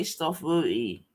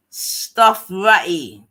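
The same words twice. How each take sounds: First: Said in the usual way. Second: "ratty" said loudly and slowly, trying out the word; misread roti as "ratty". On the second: Real, not acted. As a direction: stretch out "ratty" as a puzzled first attempt. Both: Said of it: "Okay, stuff roti".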